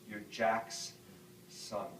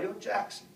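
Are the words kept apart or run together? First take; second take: kept apart; run together. First: A plain accent keeps the words apart. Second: A Southern accent runs the words together.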